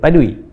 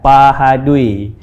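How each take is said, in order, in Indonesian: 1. Kata itu disingkat menjadi dua suku kata yang cepat. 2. Kata itu diucapkan secara lengkap, tiga suku kata.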